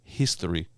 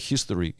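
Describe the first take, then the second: First: It begins with a plain breathy h sound. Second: It begins with a raspy throaty ch sound. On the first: "instead of history" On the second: "I always say history ... There's a ch in there"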